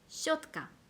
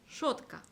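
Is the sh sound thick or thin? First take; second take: thin; thick. First: The sh sound is thin and soft. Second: The sh sound is thick and hard. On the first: The speaker calls it right. "발음을 최대한 얇게 내뱉는다" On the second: The speaker calls it wrong. "이걸 샤로 발음할 때만 이렇게 됐을 거예요"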